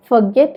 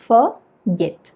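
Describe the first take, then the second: First: Said in the usual way. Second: "forget" in two separate syllables, for, get; split into syllables. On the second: Shown as a demonstration. Teacher showing learners two syllables, "forget" said as for... get. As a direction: break "forget" after "for" with a clear gap. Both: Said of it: "രണ്ട് syllables ഉണ്ട്".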